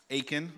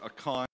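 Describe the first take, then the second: First: Achan said AY-kin; pronounced Achan. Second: Achan said ah-KAHN; alternate pronunciation. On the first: Pastor reviewing last week's chapter, Achan said AY-kin. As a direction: say Achan as AY-kin, stress up front. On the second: Pastor giving the name from other places, Achan said ah-KAHN. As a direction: say Achan as ah-KAHN, stress at the end. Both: Shown as a demonstration. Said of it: "as it is pronounced in other places".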